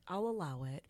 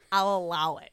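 First: Said in the usual way. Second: Loud, commanding mistress voice; getting into it. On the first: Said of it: "Then I get into it". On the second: Retold or imitated. Mistress granting her client's request, loudly in character. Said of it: "Then I get into it. I'm like".

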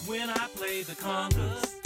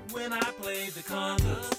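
No difference in how they are said.

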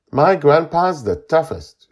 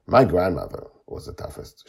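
First: Put-on high, loud child's voice; boasting boy. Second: Woman's gentle rejoinder. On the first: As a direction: brag stoutly like a little kid. Boy boasts of his grandpa. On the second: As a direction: counter the boast in a grown-up voice. Woman answers boy's boast in turn. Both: A narrator's reading.

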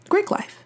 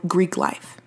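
First: High sing-song. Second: Said in the usual way. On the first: Shown as a demonstration. Repeating topic title, pitched up.

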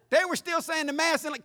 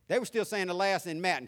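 First: They were still saying the Mass in Latin said again, higher and louder; corrected retake. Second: "Last" said for "Mass", in his plain voice; slip of the tongue. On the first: Shown as a demonstration. Preacher correcting his own slip, higher and louder. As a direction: fix the slip and land "Mass" clearly. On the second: Real, not acted. Preacher telling his childhood church, tongue slips. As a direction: say "Last" where you mean "Mass". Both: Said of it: "I got my merge wixed".

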